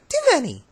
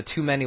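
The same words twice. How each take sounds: First: "Too many" squeaked very high and quick; "Too many" jumps way up in pitch, fast. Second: Said in the usual way. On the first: Retold or imitated. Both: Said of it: "very high-pitched and very fast".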